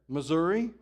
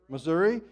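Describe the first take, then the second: No difference in how they are said.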